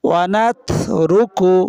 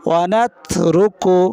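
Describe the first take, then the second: Both takes have the same delivery.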